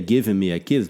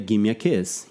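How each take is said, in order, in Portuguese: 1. 'Give me' é falado como duas palavras completas. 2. 'Give me' é falado junto, como 'gimme'. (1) "nem falaria"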